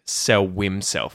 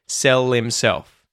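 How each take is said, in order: First: The L is dark and sounds like a W. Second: The L is light and links into the next word. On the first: The speaker calls it wrong. "we can't do it with a dark L. Otherwise, it'll sound like a weird W sound" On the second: The speaker calls it right. "you use the light L"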